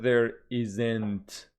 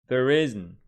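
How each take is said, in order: First: An extra syllable is added inside "isn't". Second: No extra syllable is added inside "isn't". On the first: The speaker calls it wrong. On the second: The speaker calls it right.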